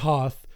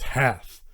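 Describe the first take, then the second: First: The vowel sounds like the one in 'hot'. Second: The vowel sounds like the one in 'hat'. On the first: The speaker calls it wrong. "It's not Hoth" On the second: The speaker calls it right. "it's Hath"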